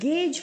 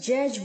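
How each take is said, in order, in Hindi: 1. यह g से शुरू होता है और j पर खत्म होता है। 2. यह j से शुरू होता है और j पर खत्म होता है। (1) "इसको हम गेज बोलेंगे" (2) "ना ही जनरेट की तरह जैज बोलेंगे"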